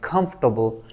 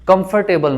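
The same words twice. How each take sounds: First: Vowels are dropped, giving three syllables. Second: Every vowel is sounded, giving four syllables. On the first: The speaker calls it right. "इस ओ को भी नहीं पढ़ेंगे, इस ए को भी नहीं पढ़ेंगे" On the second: The speaker calls it wrong. "कंफर्टेबल नहीं"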